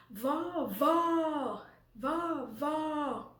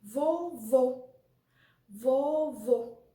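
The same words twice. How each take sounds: First: "vó" repeated with a wide-open o. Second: "vô" repeated with a closed, rounded o; loud, measured "vô", mouth only slightly open. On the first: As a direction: drop the jaw on each drawn-out "vó". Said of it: "nós temos o som aberto". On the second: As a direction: say each "vô" firmly, lips rounded. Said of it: "é mais fechado". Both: Shown as a demonstration.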